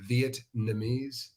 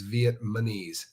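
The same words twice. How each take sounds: First: The word is said without an extra M sound. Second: The word is said with an extra M sound. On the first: The speaker calls it right. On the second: The speaker calls it wrong.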